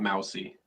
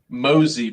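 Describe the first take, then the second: First: The name sounds like the word mousy. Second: The name does not sound like mousy. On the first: The speaker calls it wrong. "not Mousy ... pronounce it Mousy when he like the animal" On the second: The speaker calls it right. "Mosey, by the way, everybody"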